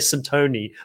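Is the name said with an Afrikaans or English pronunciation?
English. The name is said the English way.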